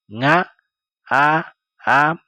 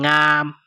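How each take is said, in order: First: "Nga a am" with a pause after each sound. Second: Said in the usual way. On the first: Shown as a demonstration. Teacher showing learners the word for yawning, "Nga a am" sounded out. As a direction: give each piece alone, "Nga", "a", "am".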